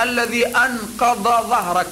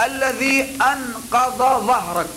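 First: Said in the usual way. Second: الذي أنقض ظهرك, slow, with the tongue behind the teeth on ض and ظ; slow careful Quranic articulation. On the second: Shown as a demonstration. Preacher showing students how to recite, slow and exact. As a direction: draw out الذي أنقض ظهرك, every letter from its point. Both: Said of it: "لاحظ لما تقرأ".

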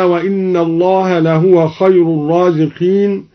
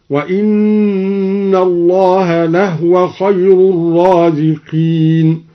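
First: Said in the usual way. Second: Slow chant, لهو as "lahwa"; recitation, silent ha. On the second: Shown as a demonstration. Teacher demonstrating the reading, slow chant with "lahwa" for لهو. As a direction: chant slowly with no vowel on the ه of لهو. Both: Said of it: "سكن الهاء هكذا".

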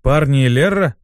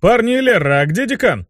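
First: Questioning echo. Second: High, bleated question; bleating. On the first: Squadmate repeating the imp's address, questioning it. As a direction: throw the address back as a question. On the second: Imp asking where the dean is, bleating high. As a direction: bleat it out to the squad. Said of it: "проблеял Руперт". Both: Acted.

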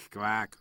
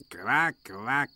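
First: Said in the usual way. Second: Mock duck quack, odd timbre, rising. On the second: Donald teasing Duck with a mock quack.

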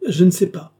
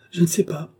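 First: Louder, higher panicked repeat; frightened outcry. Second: A touch of panic, raised pitch; queen's first anxious cry, pitch up; frightened cry. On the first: Marie-Antoinette cries out to the dauphin in fear, louder. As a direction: break into a real cry the second time. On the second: Marie-Antoinette refuses the dauphin's reassurance, a touch of panic. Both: Acted. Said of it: "s'écrie Marie-Antoinette".

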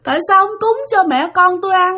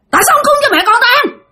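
First: High mournful wail; crying ghost. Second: High, rapid-fire shriek; angry screaming ghost. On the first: Ghost mother begging the sleeper for food, in a high tearful wail. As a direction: moan the complaint like a weeping spirit. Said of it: "đang khóc". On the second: Ghost mother turning on the sleeper, shrieking fast and high. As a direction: snap into a fast, scolding yell. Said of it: "Nạt lên, la làng lên các bạn". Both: Retold or imitated.

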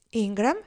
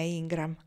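First: Rising, louder question on the name; a puzzled echo; surprised repeat. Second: Said in the usual way. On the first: Acted. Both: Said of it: "ripeté lei".

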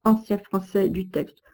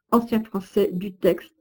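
The two takes are said the same way.

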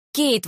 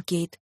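First: The name called out high and bright, falling at the end; joyful exclamation. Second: Said in the usual way. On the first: A narrator's reading. Mother-in-law greeting Kate in the restaurant, happy exclamation. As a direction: cry out the name on seeing her. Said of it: "воскликнула она".

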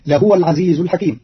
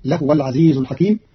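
First: لهو as lahuwa; vowel the ha in لهو; Hafs reading. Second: لهو as lahwa with silent ha; lahwa, no vowel on ha; Qalun reading. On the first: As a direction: lahuwa al-aziz. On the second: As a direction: lahwa al-aziz. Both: Shown as a demonstration. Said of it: "بإسكان الهاء تخفيفا".

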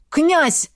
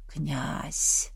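First: High, loud call of a name; urgent shout. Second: Faint, low call from far off; calling softly from a distance; distant call. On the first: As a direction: call out sharply to wake him. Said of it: "Голос Береслава промелькнул". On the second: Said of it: "донёсся знакомый голос до его сознания". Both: Acted.

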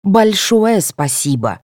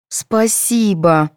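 First: Slow sneering thanks; snide drawn-out thank you; sarcastic. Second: Very slow reluctant thanks; glum. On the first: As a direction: lay the sarcasm on thick. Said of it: "Соня язвительно добавила". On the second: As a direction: drag it out unwillingly. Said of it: "уныло повторили недовольные девицы". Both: A narrator's reading.

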